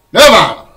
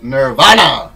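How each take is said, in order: First: Loud, compressed "Nirvana", the r dropped; alternative pronunciation. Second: Loud "Nirvana" with an open, stressed middle syllable; alternative pronunciation. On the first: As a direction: blurt "Nirvana" as nuh-VAHN, ending swallowed. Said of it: "Is it Nirvana". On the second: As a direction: say "Nirvana" as nur-VAH-nuh. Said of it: "or is it Nirvana?". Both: Shown as a demonstration.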